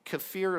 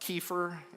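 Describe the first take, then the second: First: It uses the Eastern European pronunciation. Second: It uses the American pronunciation. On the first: "the correct pronunciation from Eastern Europe" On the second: "We pronounce it uh, kefir in the United States"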